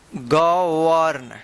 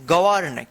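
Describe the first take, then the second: First: govern stretched out syllable by syllable; slow, lower-pitched govern for learners; sounded out slowly. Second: Said in the usual way. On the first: Shown as a demonstration. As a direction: draw govern out as 'ga... warn'. Teacher repeats word drawn out.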